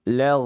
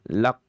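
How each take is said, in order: First: The consonant flows softly with continuous air. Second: The consonant is stopped hard with a bounce. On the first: The speaker calls it right. "tapi rakhawah. Lag, lag, lag. Begitu caranya ya" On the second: The speaker calls it wrong. "dalam kondisi syiddah, lak atau qalqalah"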